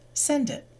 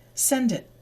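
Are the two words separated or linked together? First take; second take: linked; linked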